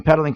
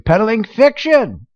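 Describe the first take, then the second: First: Said in the usual way. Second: Peddling fiction drawn out slowly, much higher and scornful; scornful echo of the phrase; slow mocking repeat. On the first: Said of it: "thank you, Mister Producer". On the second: Real, not acted.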